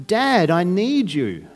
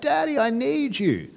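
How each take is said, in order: First: Slow, sincere plea; earnest cry. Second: Put-on much higher, slow child's sing-song; sing-song kid call. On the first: Pretend. Believer crying out to God in suffering, slow and sincere. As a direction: lean on each word, a child's trust. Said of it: "We cry out". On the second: Kids calling their dad at night, high sing-song. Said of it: "in that really sing-song voice".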